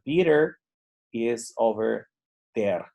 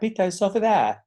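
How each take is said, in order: First: It is spoken in a neutral accent. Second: It is spoken in a native British accent. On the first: The speaker is at an intermediate level. "Más neutral podría ser" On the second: The speaker is at an advanced level. "yo esperaría en inglés británico algo como"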